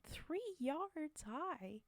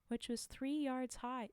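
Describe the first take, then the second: First: "Three yards high!" slowed right down, "Three" stressed and falling; slow emphatic repeat. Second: Said in the usual way. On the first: Shown as a demonstration. Reader marvels at the tall crown, stretching "Three yards high!" slowly.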